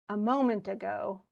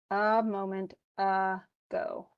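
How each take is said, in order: First: Said in the usual way. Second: Very slow "a moment ago", each "uh" separated; drawn-out schwa. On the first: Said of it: "as in". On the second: Shown as a demonstration. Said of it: "See, a".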